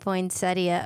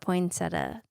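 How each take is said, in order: First: Every letter of the spelling is pronounced. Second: Some letters of the spelling are not pronounced. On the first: This follows the written form. "it's supposed to be poinsettia according to the spelling" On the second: This is the habitual everyday form. "I'd probably call it poinsettia because that's how I've always learned it"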